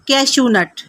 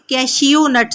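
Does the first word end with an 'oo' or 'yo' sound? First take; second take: oo; yo. First: The first word ends with an 'oo' sound. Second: The first word ends with a 'yo' sound. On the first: The speaker calls it right. "बल्कि ये है कैशू nut" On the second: The speaker calls it wrong. "Spellings के हिसाब से कैशियो नट नहीं कहना"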